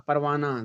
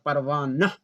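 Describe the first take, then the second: First: परवाना ending smoothly in "naa"; silent final h. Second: परवाना ending in a split-off, breathed "nah"; teacher's mistaken परवाना with an audible final h; wrong reading demo. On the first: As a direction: say परवाना in one piece, no h. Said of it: "इस तरह से हम पढ़कर". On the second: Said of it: "नह नहीं पढ़ते हैं". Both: Shown as a demonstration.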